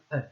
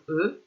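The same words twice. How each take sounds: First: E said as open "eu", as in peur. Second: E said as closed "eu", as in feu. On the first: Teacher introducing spellings to pupils, E as open "eu". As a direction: say E with the mouth more open, "eu". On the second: Teacher introducing spellings to pupils, E as closed "eu". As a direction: say E with lips nearly closed, "eu". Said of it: "les différentes écritures du son". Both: Shown as a demonstration.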